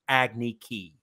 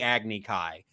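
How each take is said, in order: First: The last word rhymes with 'key'. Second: The last word rhymes with 'sky'. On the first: The speaker calls it wrong. "they had that kid pronounce it Agni Ki, which is ridiculous" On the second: The speaker calls it right. "that was actually pronounced correct in the series"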